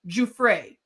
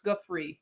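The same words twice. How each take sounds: First: Giuffre said as joo-FRAY, stress at the end; corrected name. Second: Giuffre clipped to a quick two syllables; first try at a name. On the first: Host corrects herself on the accuser's name, careful. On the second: Host unsure of the accuser's name, tries it. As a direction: Giuffre tried once, uncertain. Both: Shown as a demonstration.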